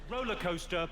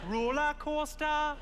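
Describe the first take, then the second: First: It is said in the speaker's ordinary accent. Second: It is said in a put-on Geordie accent.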